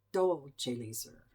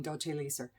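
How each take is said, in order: First: "Dolce" drawn out slowly, then "Leser"; slow, stretched stress on "Dolce"; emphasis on DOLCE. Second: Said in the usual way. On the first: Shown as a demonstration. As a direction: lean long on the first word, "Dolce". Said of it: "putting the wrong emphasis". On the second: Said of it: "I'm saying Dolce Leser".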